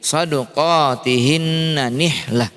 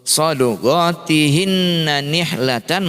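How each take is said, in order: First: The last word ends with a soft h sound. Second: The last word ends with a -tan sound. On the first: The reader stops on this word. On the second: The reader continues without stopping.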